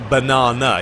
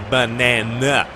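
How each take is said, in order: First: It is said with a British accent. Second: It is said with an American accent.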